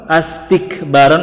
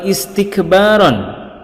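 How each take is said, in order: First: The word begins with the vowel a. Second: The word begins with the vowel i.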